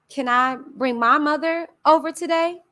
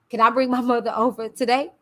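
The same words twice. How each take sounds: First: It is said in another character's voice. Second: It is said in the narrator's own voice.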